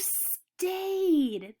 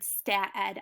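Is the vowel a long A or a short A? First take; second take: long A; short A. First: The vowel is a long A, as in day. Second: The vowel is a short A, as in cat. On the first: The speaker calls it right. "I'm going to try it with the A sound" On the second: The speaker calls it wrong. "I have never heard of the word stat ed"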